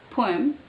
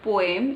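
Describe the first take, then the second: First: POEM with a puffed P and weak ending; corrected POEM. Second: POEM in two full syllables, "po-em"; mispronounced POEM. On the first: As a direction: say POEM as "POH-um". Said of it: "it's poem". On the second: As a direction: say POEM with a clear EM. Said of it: "it's not poem". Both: Shown as a demonstration.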